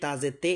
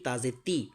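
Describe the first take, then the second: First: The syllable ends in an 'eh' vowel. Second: The syllable ends in an 'ee' vowel. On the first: The speaker calls it wrong. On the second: The speaker calls it right.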